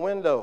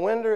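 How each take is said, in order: First: The word ends with an 'oh' sound. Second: The word ends with an 'er' sound. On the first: The speaker calls it right. "it was a window" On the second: The speaker calls it wrong. "it wasn't a window"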